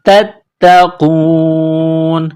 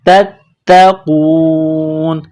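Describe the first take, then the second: First: The word ends on a bare n sound. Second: The same.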